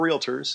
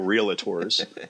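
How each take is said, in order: First: No extra vowel is added before the final syllable. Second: An extra vowel is added before the final syllable. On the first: The speaker calls it right. "But there are realtors" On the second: The speaker calls it wrong. "there is no A, ... just as there are no realtors"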